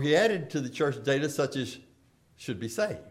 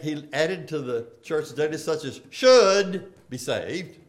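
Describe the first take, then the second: First: "should be saved" unstressed and fading, as chance not duty; should said lightly. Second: "should" lifted and held with a rising tune, meaning ought to; "such as should be saved" with "should" pressed like an obligation; stress on should. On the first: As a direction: drop the weight off "should", trailing down. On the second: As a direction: lean on "should" as duty, rising at the end. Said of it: "you can read that". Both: Shown as a demonstration.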